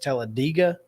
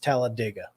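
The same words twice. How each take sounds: First: The ending is said like 'dayga'. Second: The ending is said like 'dig a'. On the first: This is the other acceptable way to say it. "the only other pronunciation that is acceptable is Talladega" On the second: This is how the town is named. "like dig a hole"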